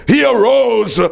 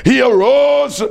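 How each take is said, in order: Both takes have the same delivery.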